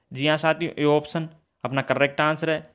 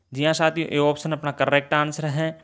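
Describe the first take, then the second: No difference in how they are said.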